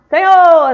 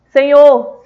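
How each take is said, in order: First: It is shouted at a very high volume. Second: It is said at a raised, louder volume. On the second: "ou pode ser em tom mais alto"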